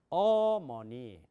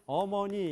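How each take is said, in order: First: One syllable carries a strong stress. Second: All syllables are said evenly, without stress. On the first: This is how English speakers say it. "강세, 어디에 액센트를 준단 말이에요" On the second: This is how Korean speakers say it. "한국 사람은 어머니 이렇게 얘기하는 게 가능해요"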